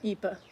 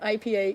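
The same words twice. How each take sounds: First: The letters are spelled out with Norwegian letter names. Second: The letters are spelled out with English letter names. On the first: "Why does Norwegians call that I P A" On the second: "instead of you know I P A"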